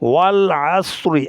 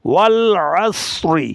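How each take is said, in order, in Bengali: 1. শব্দটি একটি ছোট 'i' স্বরধ্বনি দিয়ে শেষ হয়। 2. শব্দটি একটি ছোট 'i' স্বরধ্বনি দিয়ে শেষ হয়।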